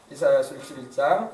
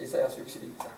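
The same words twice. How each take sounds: First: Said in the usual way. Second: Whispered under the breath while turning pages; barely voiced mutter of 이사야서 육십일 장; whispered aside. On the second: Real, not acted. Muttering while finding the page. (혼잣말처럼 속삭이듯)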